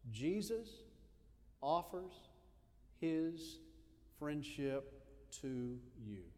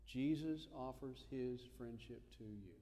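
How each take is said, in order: First: "Jesus ... offers ... his ... friendship to you" with a pause before each word; slow, word by word. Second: Said in the usual way. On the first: Shown as a demonstration. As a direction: lay each word down slowly, one at a time.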